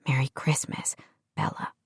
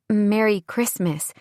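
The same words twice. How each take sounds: First: Soft tender whisper. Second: Said in the usual way. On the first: A narrator's reading. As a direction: breathe it close to her ear. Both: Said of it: "Sam whispered".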